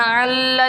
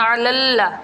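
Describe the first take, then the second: First: "अल्ला" merged into two syllables, al-laa; incorrect reading. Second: "अलल्ला" in three syllables, a-lal-la; correct reading. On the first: Teacher shows what not to read, "अल्ला" with the syllable dropped. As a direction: run "अल्ला" together, losing the middle syllable. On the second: Teacher corrects the mistake, "अलल्ला" with every syllable sounded. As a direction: open "अलल्ला" with ayn and a short vowel, then double the l. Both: Shown as a demonstration. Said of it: "अल्ला नहीं पढ़ना".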